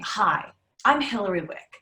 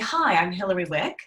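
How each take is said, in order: First: The voice falls at the end. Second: The voice rises at the end. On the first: The speaker sounds confident and grounded. The speaker calls it right. "instead of saying" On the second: The speaker sounds unsure of herself. The speaker calls it wrong. "up talk happens at this upward inflection at the very end"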